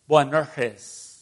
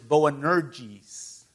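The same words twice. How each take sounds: First: The name is pronounced the original Aramaic way. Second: The name is pronounced the usual English way. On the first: "if you want to pronounce it in their original language" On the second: "The Aramaic word is Boanerges"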